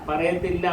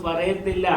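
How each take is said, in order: No difference in how they are said.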